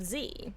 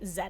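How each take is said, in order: First: The letter is said the non-Canadian way. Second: The letter is said the Canadian way. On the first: "instead of Z" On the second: "Canadians and other parts of the world say Z"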